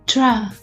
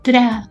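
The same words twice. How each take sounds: First: A sh sound is heard between t and r. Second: No sh sound is heard between t and r. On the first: The speaker calls it right. "so it is tra" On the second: The speaker calls it wrong. "not tra"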